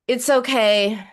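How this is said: The tone sounds harsh and uncomforting. It does not comfort the listener. The speaker calls it wrong. "Is that comforting? ... no, never"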